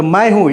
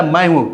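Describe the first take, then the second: First: मैं hit firmly, हूँ falling after it; stress on मैं. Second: Said in the usual way. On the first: Shown as a demonstration. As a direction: lean hard on मैं, then drop हूँ. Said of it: "किसी noun या pronoun पर जोर देके बोलते हैं ना". ("मैं" पर ज़ोर देकर बोलें) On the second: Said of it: "नहीं बोलता है".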